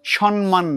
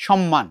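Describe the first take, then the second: First: সম্মান as slow "shon-man", n before m; mistaken n sound. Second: সম্মান as "shom-man", lips closed on mm; correct double m. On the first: Teacher shows the wrong সম্মান, drawn-out "shon-man". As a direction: swap the first m of সম্মান for n. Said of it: "এটা আমরা ভুল করি". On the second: Teacher models সম্মান correctly as "shom-man". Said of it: "সম্মান নয়". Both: Shown as a demonstration.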